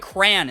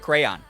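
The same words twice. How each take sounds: First: It is said with a Rochester pronunciation. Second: It is said with a non-Rochester pronunciation. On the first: This is how people from Rochester say it. "We say crayon" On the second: This is how people elsewhere say it. "instead of crayon"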